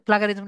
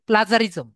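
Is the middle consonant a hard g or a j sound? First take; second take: hard g; j sound. First: The middle consonant is a hard g sound. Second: The middle consonant is a soft j sound. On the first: The speaker calls it wrong. "এটা কিন্তু প্লাগার প্লাগারিজম না" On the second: The speaker calls it right.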